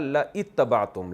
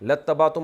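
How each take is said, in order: First: La is followed by a separate i sound. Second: La runs straight into the word with no i. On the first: This is the underlying original form. "असल में था" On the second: This is the form actually recited. "अलिफ साइलेंट हो गया"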